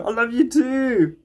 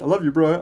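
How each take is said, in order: First: Slow, tender reply. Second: Said in the usual way. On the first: Real, not acted. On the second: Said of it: "Nick comment".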